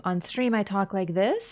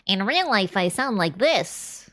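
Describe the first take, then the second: First: Said in the usual way. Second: A lightly changed nerdy voice; real life voice. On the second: Shown as a demonstration. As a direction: switch to a different voice for the joke.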